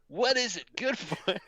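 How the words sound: It is said in a put-on cartoon character voice.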